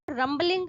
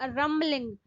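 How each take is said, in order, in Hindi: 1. b की ध्वनि उच्चारित होती है। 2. b की ध्वनि मूक है। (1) "so it's not rumbling" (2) "The B in uh, rumbling is silent"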